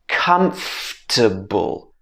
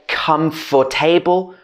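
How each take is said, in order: First: The f and t sounds are run together. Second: The middle syllables are said separately and fully. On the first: The speaker calls it right. "we can put this f and t together" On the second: The speaker calls it wrong. "a lot of people would say comfortable"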